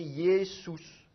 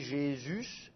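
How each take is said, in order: First: It begins with a y sound and oo vowel. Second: It begins with a zh sound and French u. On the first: This is the original pronunciation. "il faudrait prononcer Yessus" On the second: This is the French pronunciation. "la prononciation française, ça devient un J, et le U, il est prononcé U"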